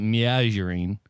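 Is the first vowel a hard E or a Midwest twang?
Midwest twang. The first vowel has a Midwestern twang. The speaker calls it wrong. "It's not"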